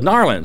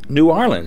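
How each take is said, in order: First: The words are squeezed together, dropping the first. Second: Both words are said fully and separately.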